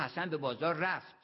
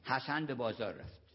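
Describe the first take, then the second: First: The stress falls on رفت. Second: No word is given special stress. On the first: There is no doubt that he went. "یعنی تردید نکنید" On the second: It is a plain statement. "یه جمله معمولی"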